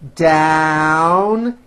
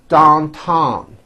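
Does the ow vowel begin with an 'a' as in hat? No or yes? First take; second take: yes; no. First: The vowel begins with 'a' as in hat. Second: The vowel does not begin with 'a' sound. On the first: The speaker calls it right. "you still attack the vowel with that A sound in hat" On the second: The speaker calls it wrong. "it's not downtown, which you may be saying"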